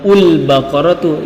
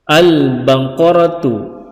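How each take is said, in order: First: The word begins with a u vowel. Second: The word begins with an a vowel. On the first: The speaker calls it wrong. "atau ul-baqaratu" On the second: The speaker calls it right. "yang benar adalah al-baqaratu"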